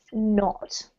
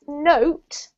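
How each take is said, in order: First: "not" with a short, open o vowel. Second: "note" with a long "oh" vowel. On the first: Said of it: "is the short vowel sound". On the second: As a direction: draw out the O in "note" as "oh". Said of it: "is the long vowel sound". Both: Shown as a demonstration.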